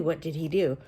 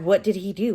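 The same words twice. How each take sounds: First: Said in the usual way. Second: Rising shocked question. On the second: Retold or imitated. Reader hooked on the mystery, mock stunned. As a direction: ask it as if stunned. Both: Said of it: "going through and going".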